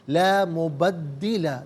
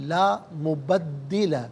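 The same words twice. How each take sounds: No difference in how they are said.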